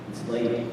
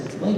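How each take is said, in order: First: Low, quiet wife imitation; understated, low-voiced delivery; hushed announcement. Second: Higher-pitched, puzzled echo; acted confusion, pitched up; baffled question. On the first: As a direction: break the news softly and low. Wife breaks pregnancy news. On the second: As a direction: query it as if clueless. Husband baffled by the news.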